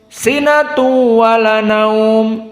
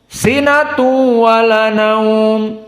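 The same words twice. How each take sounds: Both takes have the same delivery.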